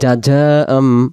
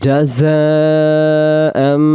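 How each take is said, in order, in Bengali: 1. মাঝের ব্যঞ্জনটি j উচ্চারণ। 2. মাঝের ব্যঞ্জনটি ঝিঁঝিঁ করা z উচ্চারণ। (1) "তাহলে উচ্চারণটা ভুল হয়ে যাবে" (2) "জা অক্ষর ঝির ঝির আওয়াজ আসবে এরকম"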